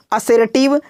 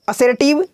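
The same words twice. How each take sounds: The two takes are said the same way.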